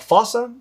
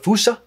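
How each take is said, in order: First: The word is said with ordinary English pronunciation. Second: The word is said with a Malagasy-style pronunciation.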